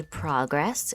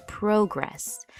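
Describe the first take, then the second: First: "progress" as PRAH-gress; noun stress on first syllable. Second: "progress" as pro-GRESS, long O; verb stress on second syllable. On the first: Teacher voicing a learner's question, "progress" stressed on PRAH. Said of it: "that's when we say progress". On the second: Teacher voicing a learner's question, "progress" stressed on GRESS. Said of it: "when I need to say progress". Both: Shown as a demonstration.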